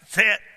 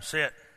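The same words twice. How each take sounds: First: The word is said firmly, with commanding force. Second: The word is said softly, without force. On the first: The command is meant to be obeyed. The speaker calls it right. "Because I got authority in my voice" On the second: The command can be ignored. The speaker calls it wrong. "There's no authority there"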